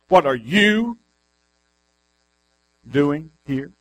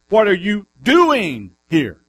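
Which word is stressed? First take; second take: here; doing. First: The stress is on "here". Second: The stress is on "doing".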